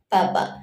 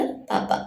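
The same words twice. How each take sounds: First: Said in the usual way. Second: Whispered पापा, barely voiced. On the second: A narrator's reading. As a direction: breathe पापा softly. Child calls father papa. (फुसफुसाकर पापा)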